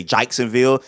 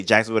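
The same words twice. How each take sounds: First: Jacksonville said as "Chaiksonville", ch start and ai vowel; local Jacksonville. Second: Said in the usual way. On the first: Shown as a demonstration. Mimicking Florida locals' Jacksonville, ch and ai sounds. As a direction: Jacksonville with a "jyke" first syllable. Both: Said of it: "can't pronounce their acts".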